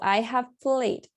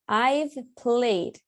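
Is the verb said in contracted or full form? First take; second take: full; contracted. First: I have is said as two separate words. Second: I have is shortened into one syllable. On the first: "eso significa lo mismo" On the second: "El I've, it's the contraction"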